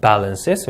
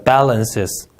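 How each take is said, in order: First: "balances" again with the same light b, ending rising; soft b repeated. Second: "balances" with a soft, light b; soft b sound. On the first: Teacher repeating the soft-b word for students. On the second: Teacher modelling a softer b than Korean. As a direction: ease gently into the b of "balances". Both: Shown as a demonstration. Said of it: "비 발음 좀 부드럽게".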